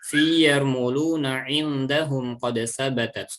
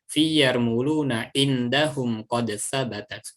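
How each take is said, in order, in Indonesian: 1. Dibaca dengan hukum tajwid, seperti ikhfa. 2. Dibaca seperti bahasa Arab biasa, tanpa ikhfa. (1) "dengan menggunakan hukum-hukum tajwid"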